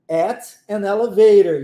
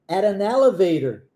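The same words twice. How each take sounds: First: The words are said slowly and separately. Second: The words run together like one word. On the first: "Olha como é que pausadamente fica" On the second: "escute naturalmente. ... Parece até uma palavra só"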